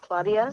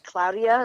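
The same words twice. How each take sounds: First: The first syllable sounds like the word claw. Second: The first syllable sounds like the word cloud. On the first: This is the usual pronunciation, not this name's. The speaker calls it wrong. "instead of Claudia" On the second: This is how the name is actually pronounced. The speaker calls it right. "Claudia is spelt with a C L O U D I A. It's like Claudia"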